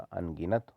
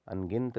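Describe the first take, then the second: First: अनगिनत ending "gi-nat"; correct full vowel. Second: अनगिनत ending in a cluster, "an-gint"; dropped vowel. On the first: Teacher correcting it, अनगिनत with the last vowel sounded. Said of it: "होता है". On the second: Teacher showing students the error, अनगिनत squashed to "angint". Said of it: "नहीं होता". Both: Shown as a demonstration.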